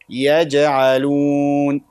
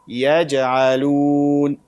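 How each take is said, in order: No difference in how they are said.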